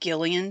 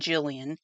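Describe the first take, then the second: First: The name begins with a hard G sound. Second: The name begins with a soft J sound. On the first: This is how some other people say the name. "some people say Gillian" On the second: This is how the speaker chooses to say the name. "I'm saying Jillian"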